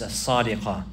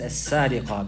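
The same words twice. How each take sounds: First: The s sound is an emphatic s. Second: The s sound is a plain s. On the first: This is a changed form of the word. "it has also been pronounced like this" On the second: This is the original form of the word. "the origin is as-sariqa bis-seen"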